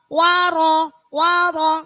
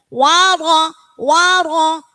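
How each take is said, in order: No difference in how they are said.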